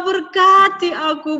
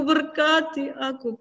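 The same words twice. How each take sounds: First: High, loud tearful begging; loud crying plea. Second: Softer crying plea. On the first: Esau cries loudly for his father's blessing. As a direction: wail the plea. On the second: Esau's begging fades to a softer plea. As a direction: let the plea sink into a sob. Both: A narrator's reading. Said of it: "Dia nangis".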